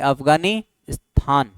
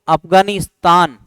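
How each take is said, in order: First: The t sound is aspirated, like th. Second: The t sound is plain, without aspiration. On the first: "त को क्या बोलते हैं, थ शब्द बोलते हैं" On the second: "आप बोलो अफगानिस्तान"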